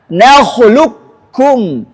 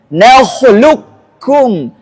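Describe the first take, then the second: The two takes are said the same way.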